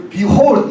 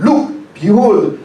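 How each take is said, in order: First: Said in the usual way. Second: "look, behold" stretched out very slowly, "look" hit hardest; drawn-out stress. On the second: Shown as a demonstration. Preacher pressing "look, behold" on the congregation, very slowly. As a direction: lean on "look" and drag out "behold". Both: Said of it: "이게 너무나 behold".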